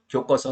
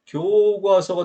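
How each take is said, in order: First: 교과서 with short 교 and tense 꽈; short tense reading. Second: 교과서 with a drawn-out 교; original long vowel. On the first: Teacher showing the mispronunciation, short 교과서. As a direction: say 교꽈서 quickly. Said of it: "강세가 없는 걸로". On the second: Teacher confirming correct form, long 교과서. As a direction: hold 교 long before 과서. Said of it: "본래의 긴 소리대로". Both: Shown as a demonstration.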